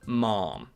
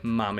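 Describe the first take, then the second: First: A long, stretched vowel, close to mom. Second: A short, quick vowel that rhymes with jam. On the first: The speaker calls it wrong. "some people stretch the A's to make it sound more like received pronunciation" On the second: The speaker calls it right. "the quicker way, ma'am, is more correct"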